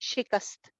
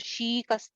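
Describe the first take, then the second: First: The first vowel is short. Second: The first vowel is drawn out long. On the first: The speaker calls it right. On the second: The speaker calls it wrong.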